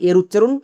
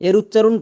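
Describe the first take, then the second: Both takes have the same delivery.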